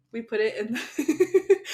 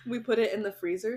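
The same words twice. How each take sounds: First: Slow words through laughter; laughing. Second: Said in the usual way. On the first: Real, not acted. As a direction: laugh while saying it. Laughing mid-sentence.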